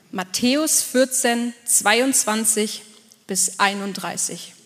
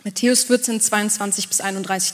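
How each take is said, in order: First: "Matthäus vierzehn, zweiundzwanzig" spelled out slowly, word by word; slow it right down so they can find the verse; slow dictation. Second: Said in the usual way. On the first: Shown as a demonstration. Pastor telling the congregation which verse to open, slow dictation. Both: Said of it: "schlag mal auf".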